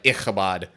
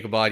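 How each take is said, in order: First: It is said with a harsh, throaty guttural sound. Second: It is said with plain, unaspirated English consonants. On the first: "a lot more phlegm in that name" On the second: "Americanized pronunciation"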